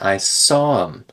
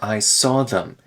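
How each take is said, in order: First: The th is dropped, giving a reduced em. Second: The word them is said in full with th. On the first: "We could remove the th entirely" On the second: "That's a little bit extra clear"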